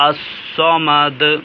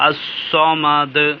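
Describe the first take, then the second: No difference in how they are said.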